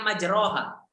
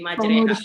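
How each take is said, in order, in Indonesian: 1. Vokal setelah r terdengar seperti 'a'. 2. Vokal setelah r terdengar seperti 'e'. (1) "Kan aslinya majroha" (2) "jadi majreha"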